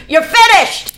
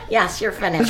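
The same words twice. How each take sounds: First: Loud, high yell down the hall; triumphant shout. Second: Said back in an easy, laughing voice; relaxed, amused confirmation. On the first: Father shouting the news down the hall, loud and triumphant. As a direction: shout it like a father who's won. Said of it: "My dad goes". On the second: Father telling his daughter she's done, laughing and relaxed. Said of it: "And he said". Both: Retold or imitated.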